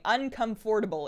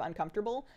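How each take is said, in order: First: Every syllable is pronounced just as spelled. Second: It is said in the usual reduced way. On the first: It follows the written spelling. "I p- insisted on saying uncomfortable ... because I was like, that's how it's spelled" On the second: It is the ordinary spoken form. "instead of"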